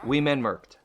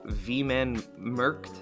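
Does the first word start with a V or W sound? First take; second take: W; V. First: The first word starts with a W sound. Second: The first word starts with a V sound. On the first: The speaker calls it wrong. "I didn't get the second one correct" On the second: The speaker calls it right. "W is said like a V"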